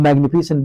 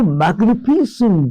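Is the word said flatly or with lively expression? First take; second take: flatly; lively. First: The word is said flatly, without expression. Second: The word is said with lively, animated expression. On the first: The word fails to convey its meaning. The speaker calls it wrong. "The magnificent word never translates and transmits the meaning" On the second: The word conveys the grandeur it describes. The speaker calls it right. "when you add life into that word"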